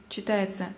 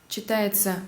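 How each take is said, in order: The two takes are said the same way.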